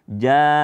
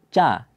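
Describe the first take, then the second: First: The first sound is a voiced j. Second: The first sound is a voiceless ch. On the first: The speaker calls it right. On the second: The speaker calls it wrong.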